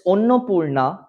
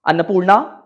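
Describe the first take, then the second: First: The first vowels are rounded, like 'Onno'. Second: The first vowels are open, like 'Anna'. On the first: "I come from Bengal" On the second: "Had I been from Maharashtra or Delhi"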